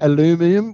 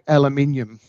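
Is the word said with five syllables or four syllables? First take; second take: four; five. First: The word is said with four syllables. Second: The word is said with five syllables. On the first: The speaker calls it wrong. "We don't say aluminum" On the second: The speaker calls it right. "we say aluminium"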